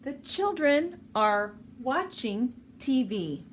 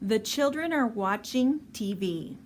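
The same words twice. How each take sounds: First: It is said at a normal, careful speed. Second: It is said a little faster.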